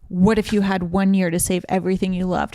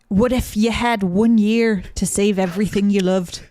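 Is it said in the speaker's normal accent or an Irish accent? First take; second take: normal; Irish. First: It is said in the speaker's normal accent. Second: It is said in an Irish-sounding accent.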